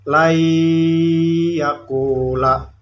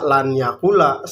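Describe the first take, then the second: First: The n sound merges into the following y. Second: The n sound is clearly pronounced before y. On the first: The speaker calls it right. "Jadi dibacanya lai yakula" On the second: The speaker calls it wrong. "Tidak boleh dibaca lan yakula"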